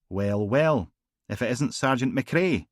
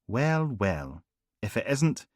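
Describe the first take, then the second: First: Mock-delighted inspector, a bit louder; Singh's sardonic greeting. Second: A different voice, rising on isnt; Harper's mock greeting. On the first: Inspector taunting Logan at the graveside, mock delight. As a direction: sardonic detective inspector greeting an old rival. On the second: Harper teasing Logan at the churchyard, arch. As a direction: arch superior officer echoing the line.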